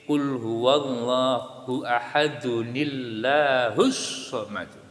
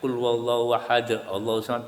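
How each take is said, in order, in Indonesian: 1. Ahad tersambung ke Allahu melalui 'nil' penyambung. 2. Ahad diakhiri dengan berhenti sebelum Allahu. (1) "Karena sebelum itu sudah ada kasro"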